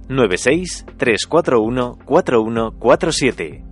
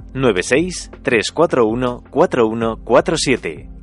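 Both takes have the same delivery.

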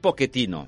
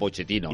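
First: The name is pronounced the Italian way. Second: The name is pronounced the Spanish way. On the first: "Segons un italià, em va dir una vegada que està dit Pochettino" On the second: "si el pronuncies en castellà, en aquest cas ell és argentí, és Pochettino"

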